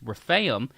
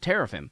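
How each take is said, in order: First: The word begins without a T sound. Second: The word begins with a T sound. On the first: The speaker calls it right. "The T is silent" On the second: The speaker calls it wrong. "It's that's not teraphim"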